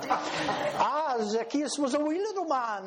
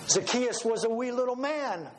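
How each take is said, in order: First: It is said in a put-on Irish accent. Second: It is said in the speaker's ordinary accent.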